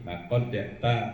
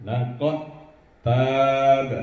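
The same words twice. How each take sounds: First: "Lakot ya ta" with the consonants kept separate; unmerged wrong reading. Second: "Lakot tab" with dal merged into ta, "tab" loud and held; merged idgham reading. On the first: Teacher showing learners what not to read, "Lakot ya ta" left unmerged. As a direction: say "Lakot ya ta" plainly, without merging into the ta. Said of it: "tidak dibaca seperti ini". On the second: Teacher giving the correct example, "Lakot tab" merged and drawn out. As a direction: recite "Lakot tab" straight into a doubled t, long vowel. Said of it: "Langsung dimasukkan".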